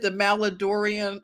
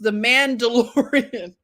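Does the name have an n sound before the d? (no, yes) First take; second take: no; yes. First: The name has no n sound before the d. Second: The name has an n sound before the d. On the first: The speaker calls it wrong. "I said the Maladorian" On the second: The speaker calls it right. "it's pronounced the Mandalorian"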